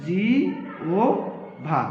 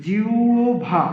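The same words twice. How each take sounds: First: জিওভা stretched very slowly as jio-bha; drawn-out pronunciation. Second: Said in the usual way. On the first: Shown as a demonstration. Teacher stretching out জিওভা so students hear the sound, very slow. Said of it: "তাহলে হবে". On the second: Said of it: "যদি উচ্চারণ করি".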